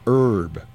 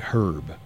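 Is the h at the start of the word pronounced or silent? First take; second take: silent; pronounced. First: The word starts with a vowel, no h sound. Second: The word starts with an audible h sound. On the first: This is how it is said in the US. "but we don't" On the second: This is how it is said in the UK. "in the UK they say herb"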